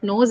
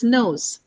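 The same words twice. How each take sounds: First: Nose with a flat pure o; wrong nose. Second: Nose gliding from o to oo; right nose. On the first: Teacher showing the wrong nose. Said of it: "So it's not nose". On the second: Teacher modelling the right nose. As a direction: glide nose into oo. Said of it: "it's nose". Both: Shown as a demonstration.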